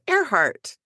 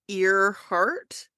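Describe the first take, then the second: First: The name begins with an 'air' sound. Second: The name begins with an 'ear' sound. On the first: The speaker calls it right. "you pronounce it Earhart" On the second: The speaker calls it wrong. "it's spelled like Earhart"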